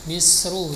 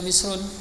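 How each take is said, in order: First: The word ends in a plain vowel, no n. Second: The word ends with an added n sound. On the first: The speaker calls it right. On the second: The speaker calls it wrong. "jangan dibaca Misrun"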